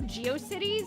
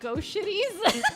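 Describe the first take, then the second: First: The word starts with the sounds 'jee-oh'. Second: The word starts with the single sound 'go'. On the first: The speaker calls it right. "I did not pronounce it like that" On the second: The speaker calls it wrong. "I pronounced it Go Shitties"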